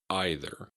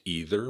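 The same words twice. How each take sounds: First: It uses the common British pronunciation. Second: It uses the usual North American pronunciation. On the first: "in the U K, it is also commonly pronounced either" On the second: "In North America, this word is usually pronounced either"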